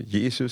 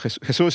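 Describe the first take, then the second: First: The name is pronounced the English way. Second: The name is pronounced the Spanish way. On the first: "or Jesus is fine" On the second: "So Jesus is the pronunciation in Spanish"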